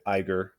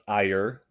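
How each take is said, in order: First: The name is said with a g sound. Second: The name is said without a g sound. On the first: The speaker calls it wrong. "I've been pronouncing it Iger this whole time" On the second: The speaker calls it right. "I believe the correct pronunciation of his name is Ayer"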